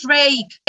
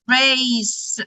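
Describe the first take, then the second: First: The c is sounded as a k. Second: The c is sounded as an s. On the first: The speaker calls it wrong. "don't say it" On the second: The speaker calls it right. "Also because of letter E"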